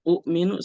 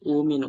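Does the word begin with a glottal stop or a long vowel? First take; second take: glottal stop; long vowel. First: A glottal stop follows the short first vowel. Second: The first vowel is long with no glottal stop. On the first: It ignores the morphological rule. The speaker calls it wrong. "salah kalau kita sebut itu u'minu salah" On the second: It follows the morphological rule. The speaker calls it right. "diubah menjadi wawu"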